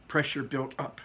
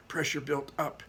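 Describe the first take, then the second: No difference in how they are said.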